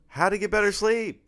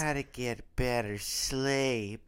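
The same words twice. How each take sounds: First: It sounds plain and matter-of-fact. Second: It sounds patronizing and annoying.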